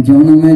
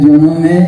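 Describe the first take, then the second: Both takes have the same delivery.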